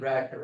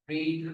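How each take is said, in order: First: The vowel is short, like 'red'. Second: The vowel is long, like 'reed'. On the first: It is the past form of the verb. "Pronunciation इसकी रैड होगी" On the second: It is the present form of the verb. "the pronunciation will be different"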